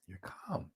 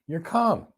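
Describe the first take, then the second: First: Breathy whispered "you're calm". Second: Said in the usual way. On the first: Shown as a demonstration. Whispered calm after interview example.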